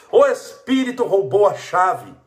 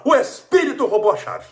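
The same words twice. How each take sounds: First: Slow, loud mocking drawl; mocking the excuse again, slow and loud; drawn-out mock excuse. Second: High, loud mocking whine; a mock spirit-blaming whine, pitched high; mock excuse. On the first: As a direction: stretch out the silly excuse. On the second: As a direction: sing out the silly excuse.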